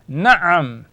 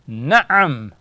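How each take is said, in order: First: It is said with a throaty catch inside. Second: The same.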